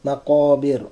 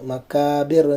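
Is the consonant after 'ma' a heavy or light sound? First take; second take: heavy; light. First: The middle consonant is a heavy, raised q sound. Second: The middle consonant is a light k sound. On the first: The speaker calls it right. "ഖാഫ് ഇസ്തിഅലാഇൻ്റെ അക്ഷരമാണ്" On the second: The speaker calls it wrong. "മക്കാബിർ എന്ന് പറയാതെ"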